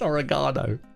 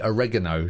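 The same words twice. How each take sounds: First: It is said the British way. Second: It is said the North American way. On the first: This is how the speaker says it. The speaker calls it right. "No, it's oregano" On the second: This is how the other person says it. The speaker calls it wrong. "You say oregano, don't you?"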